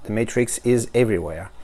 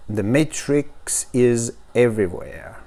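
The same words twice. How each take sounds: First: Said in the usual way. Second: Slow English with a French accent; halting, sleepy-morning French-accented English. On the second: Real, not acted. Unboxer reading the slogan to viewers, morning French accent. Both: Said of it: "c'est mon accent du matin".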